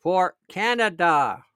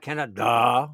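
First: Canada said slowly, with a deliberate full "da" at the end; the right way to say Canada. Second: "Canada" said low and slow, dismissed as the wrong version. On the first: Pointing viewers to the proper "Canada": slow and deliberate. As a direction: land on "Canada" slowly and clearly, the way it should sound. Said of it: "notice I said Canada". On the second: Telling viewers which "Canada" he did not say: low, slow mocking. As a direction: drop low and slow on "Canada" to mock that way of saying it. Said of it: "notice I said Canada, not Canada".

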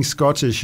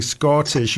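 First: Said in the usual way. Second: "Scottish" with its first vowel held longer, slow; drawn-out "Scottish". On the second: Shown as a demonstration. Producer pointing out timing to the actor, "Scottish" stretched. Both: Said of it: "You're just pulling it a microsecond longer".

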